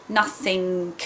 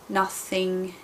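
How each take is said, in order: Both takes have the same delivery.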